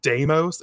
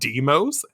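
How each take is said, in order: First: The first syllable sounds like 'day'. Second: The first syllable sounds like 'dee'. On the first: This is the name as it always was. The speaker calls it right. "hasn't it been Deimos" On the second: This is the name as newly changed. The speaker calls it wrong. "instead of Demos"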